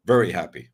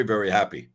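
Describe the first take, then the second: First: A lower, relishing echo of very happy; low, contented repeat. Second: Said in the usual way. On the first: Pretend. Host savouring the thought of baseball announcers, low and content.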